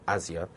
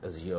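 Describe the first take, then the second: First: Azure pronounced AZ-yer; stress on first syllable. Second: Azure pronounced az-YOOR; stress on second syllable. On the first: Host putting a debate to listeners, Azure as AZ-yer. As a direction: hit the start of Azure, AZ-yer. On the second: Host putting a debate to listeners, Azure as az-YOOR. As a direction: land on the end of Azure, az-YOOR. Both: Shown as a demonstration. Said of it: "whether we should pronounce this as".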